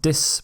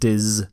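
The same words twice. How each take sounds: First: The syllable begins with an s sound. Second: The syllable begins with a z sound. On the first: The speaker calls it wrong. "Not dis" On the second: The speaker calls it right. "the z sounds dis. ... but dis"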